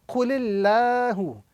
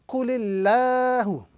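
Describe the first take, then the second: The two takes are said the same way.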